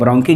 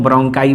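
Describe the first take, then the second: First: The word ends with an 'ee' sound. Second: The word ends with an 'eye' sound. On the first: "या ब्रोंकी" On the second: "ब्रोंकाई बोला जाता है"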